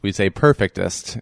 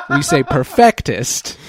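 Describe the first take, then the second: First: "perfectest" stressed at the front, PER-fictest; New Hampshire version. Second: "perfectest" slow, stressed on the middle FECT; Massachusetts version. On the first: Countering with New Hampshire's way, "perfectest" stressed on PER. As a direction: lead on PER, lighten the middle of "perfectest". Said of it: "In, uh, New Hampshire, we say perfectest". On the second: Joking about a Massachusetts regionalism, "perfectest" with FECT stressed. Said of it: "In Massachusetts, we say perfectest". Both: Shown as a demonstration.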